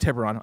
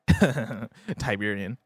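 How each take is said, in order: First: The name ends with an -on sound. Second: The name ends with an -ian sound. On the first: The speaker calls it right. "It's actually Tiberon" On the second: The speaker calls it wrong. "I like Tiberian as a... as a pronunciation"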